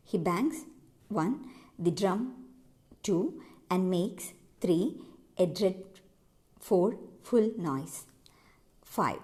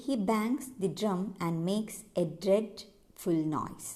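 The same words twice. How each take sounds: First: "He bangs" (pause) "one", foot by foot through to "five"; counting out feet. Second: Slow, measured iambic beat on "he bangs the drum and makes a dreadful noise"; pentameter reading. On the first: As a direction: break "He bangs, the drum, and makes, a dread, full noise" into pairs, pausing to count after each. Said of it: "അങ്ങനെയാണ് ഇത് പെന്റാമീറ്റർ ആവുന്നത്". ("He bangs, one, the drum, two" ഓരോ ഗണവും നിർത്തി എണ്ണിക്കൊണ്ട്) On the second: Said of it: "പെന്റാമീറ്റർ നമ്മൾ analyse ചെയ്യണമെങ്കിൽ". ("he bangs the drum and makes a dreadful noise" പതുക്കെ, പെന്റാമീറ്റർ താളത്തിൽ)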